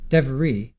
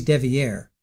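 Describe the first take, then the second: First: "Devery" said as DEV-er-ee, three syllables with an r-colored middle; "Devery" pronounced DEV-uh-ree; friend's name Devery. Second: "Devier" said as DEV-ee-air, stress on the last syllable; "Devier" pronounced dev-ee-AIR; corrected name Devier. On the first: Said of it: "I have this friend named". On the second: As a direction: say "Devier" with an open -ee-air ending, French-like. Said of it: "So he's Devier". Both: Shown as a demonstration.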